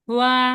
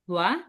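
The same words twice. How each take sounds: First: The pitch stays level throughout the syllable. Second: The pitch rises from low to high. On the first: "যদি first tone হয় কি হবে" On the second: "second tone হলে কি হবে ... নিচ থেকে উপরে উঠবে"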